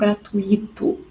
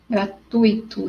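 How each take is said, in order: First: The stress falls on a separate i. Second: The stress falls on the diphthong tui. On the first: The speaker calls it wrong. "Não é no i" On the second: The speaker calls it right. "em gratuito é no tui"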